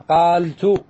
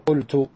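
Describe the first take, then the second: First: قالت with a long, stretched "aa": qaaltu; long vowel kept. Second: قلت with a short u: qultu; middle vowel dropped. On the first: Teacher shows students the underlying form, long vowel kept. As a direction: draw out the aa in قالت, louder. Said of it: "أصلها قال". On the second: Teacher gives students the form after deletion, short vowel. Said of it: "سكنت اللام حذفت العين". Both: Shown as a demonstration.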